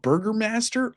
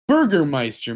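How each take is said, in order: First: The last part sounds like 'master'. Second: The last part sounds like 'meister'. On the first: The speaker calls it wrong. "call it Burgermaster over and over again" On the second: The speaker calls it right. "it's Burgermeister, man"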